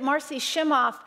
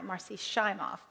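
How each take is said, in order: First: Shimoff has a short i sound. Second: Shimoff has a long i sound. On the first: The speaker calls it wrong. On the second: The speaker calls it right.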